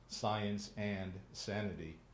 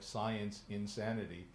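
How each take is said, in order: First: The title is said slowly and clearly. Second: The title is said quickly and run together. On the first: The speaker calls it right. "And I say that slowly" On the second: The speaker calls it wrong. "if I say it quickly, it sounds like science insanity"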